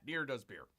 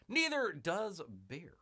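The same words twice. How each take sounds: First: Said in the usual way. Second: Slow, emphatic repeat of a quip; drawn-out repeat. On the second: Pretend. Host repeating a quip for effect, drawn-out.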